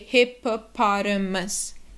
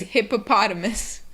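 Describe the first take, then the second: First: The word is said slowly, syllable by syllable. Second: The word is said quickly as one unit. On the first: "break it down and say" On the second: "And quickly is"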